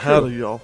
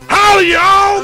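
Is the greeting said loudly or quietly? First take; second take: quietly; loudly. First: The greeting is said quietly. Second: The greeting is said loudly.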